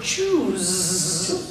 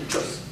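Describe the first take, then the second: First: "choose" drawn out slowly with a buzzed ending; long, slow "choose"; stretched vowel. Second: "Choose" said very short, soft; a brief "Choose"; equal-length sounds. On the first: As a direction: hold the vowel in "choose", buzz the final sound. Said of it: "The vowel gets stretched". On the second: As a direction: cut "Choose" short without stretching the vowel. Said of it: "making all those sounds equal length". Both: Shown as a demonstration.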